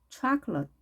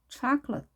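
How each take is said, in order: No difference in how they are said.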